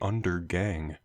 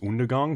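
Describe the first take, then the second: First: It sounds like the English words under gang. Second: It does not sound like English under gang. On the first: The speaker calls it wrong. "That joke doesn't work if you pronounce it properly" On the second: The speaker calls it right. "pronounce it properly, which is Undergang"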